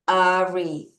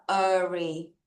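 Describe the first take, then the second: First: Said in the usual way. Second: Slow demo. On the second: Shown as a demonstration. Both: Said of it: "A는 애가 아니라 아".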